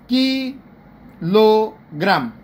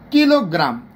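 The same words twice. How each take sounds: First: "kilogram" very slowly as ki, lo, gram; split into syllables. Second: Said in the usual way. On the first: Shown as a demonstration. Teacher showing three pushes, "kilogram" slowly split in three. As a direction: drag out "kilogram" with pauses between its three syllables. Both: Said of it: "তিনটা ধাক্কা লাগে একটা word".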